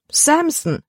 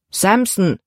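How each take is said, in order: First: The name cried out much higher in dismay. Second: Said in the usual way. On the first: A narrator's reading. Libby cries out the dog's name in dismay. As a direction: exclaim the name in alarm. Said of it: "rief Libby". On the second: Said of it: "antwortete ihr Vater".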